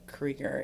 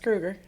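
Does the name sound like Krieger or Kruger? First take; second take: Krieger; Kruger. First: The first vowel sounds like 'ee'. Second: The first vowel sounds like 'oo'. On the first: This is how some people from Wisconsin say it. The speaker calls it wrong. "Some people s- pronounce it Krieger if you're from Wisconsin" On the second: This is how the name's owner says it. The speaker calls it right. "no, it's Kruger"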